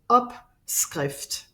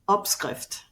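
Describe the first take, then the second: First: The word is said slowly. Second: The word is said fast.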